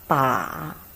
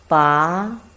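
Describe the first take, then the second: First: It is said with the third tone. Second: It is said with the second tone. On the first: "Third tongue" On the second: "the second tongue"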